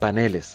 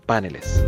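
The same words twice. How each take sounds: First: The stress is on the second syllable. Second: The stress is on the first syllable. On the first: The speaker calls it right. "en plural deja de ser una palabra aguda y pasa a ser grave" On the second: The speaker calls it wrong. "pero nunca a esdrújula. De ahí que es incorrecto decir paneles"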